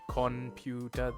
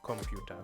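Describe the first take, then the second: First: The first syllable ends in an n sound. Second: The first syllable ends in an m sound. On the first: The speaker calls it wrong. "it wouldn't be computer" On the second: The speaker calls it right. "they would say computer actually"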